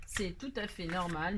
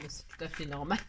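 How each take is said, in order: First: Slow, leaning on "tout" with a rise; insisting. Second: Said in the usual way. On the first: Shown as a demonstration. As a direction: stretch "tout à fait normal" and lift "tout" to reassure Angélique. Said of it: "Angélique". (insistant, en appuyant sur «tout» avec une montée) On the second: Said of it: "Angélique, c'est tout à fait normal".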